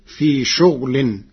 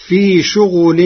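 First: شغل as "shughlin"; vowelless ghayn. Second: شغل as "shughulin"; ghayn with ḍamma. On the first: Teacher shows Warsh's resulting reading, شغل as "shughlin". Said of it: "بإسكان الغين". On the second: Teacher quotes the verse before Warsh's reading, شغل as "shughulin". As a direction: recite louder, شغل with u after the ghayn. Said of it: "كلمة شغل بإسكان الغين". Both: Shown as a demonstration.

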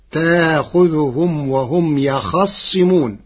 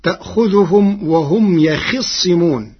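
First: يخصمون as "yakhaṣṣimūn"; khā with fatḥa. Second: يخصمون as "yakhiṣṣimūn"; khā with kasra. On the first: Teacher shows Warsh's resulting reading, يخصمون as "yakhaṣṣimūn". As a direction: slowly recite يخصمون with a after the khā. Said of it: "بفتح الخاء". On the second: Teacher quotes the verse before Warsh's reading, يخصمون as "yakhiṣṣimūn". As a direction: recite يخصمون with i after the khā. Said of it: "كلمة يخصمون بفتح الخاء". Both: Shown as a demonstration.

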